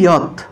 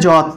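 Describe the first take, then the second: First: The word begins with a 'y' sound. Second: The word begins with a 'j' sound. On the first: This is how the letter is read in the mantra. "যতের উচ্চারণ হবে ইয়ত" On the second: This is the everyday Bengali reading of the letter. "বাংলায় বললে যত"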